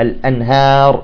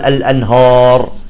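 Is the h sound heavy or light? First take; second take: light; heavy. First: The h sound is light and thin. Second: The h sound is heavy and thickened. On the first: The speaker calls it right. "ها لا الأنهار" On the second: The speaker calls it wrong. "بعض يقول الأنهار"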